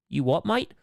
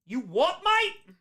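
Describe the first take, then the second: First: Mock British accent. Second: Put-on British accent shooting up high on MATE; hammed-up British challenge, pitch leaping at MATE; mock British accent. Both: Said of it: "hear a terrible British accent".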